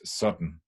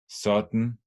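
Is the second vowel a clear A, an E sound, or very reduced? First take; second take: very reduced; E sound. First: The word is strongly reduced and shortened. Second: The second syllable has a weak E vowel. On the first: "it can be very reduced" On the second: "the A can be unstressed and become uh, unstressed E"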